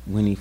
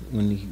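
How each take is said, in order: Both takes have the same delivery.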